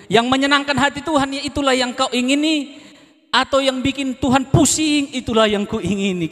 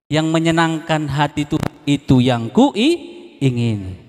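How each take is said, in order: First: Lifted song line. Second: Slow, drawn out kuingini; slow song line. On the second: Preacher repeats the lyric to the church, slow and drawn out. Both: Shown as a demonstration. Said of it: "Tadi lagunya saya ulang-ulang".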